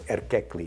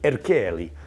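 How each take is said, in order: First: The surname is said in a Turkish-sounding way. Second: The surname is said in an Italian-sounding way. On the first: The speaker calls it right. "so Erkekli is the right way to say it" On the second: The speaker calls it wrong. "I said Erkeli, like he was Italian"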